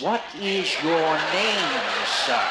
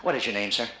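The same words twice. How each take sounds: First: Louder, very slow, drawn-out question; painfully slow and emphatic; slow, exaggerated enunciation. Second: Said in the usual way. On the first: Shown as a demonstration. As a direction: stretch every word out as if for a lip-reader. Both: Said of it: "Read my lips".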